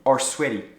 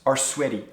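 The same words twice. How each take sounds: First: The end of 'are' is dropped before 'sweaty'. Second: The end of 'are' is dropped before 'sweaty'.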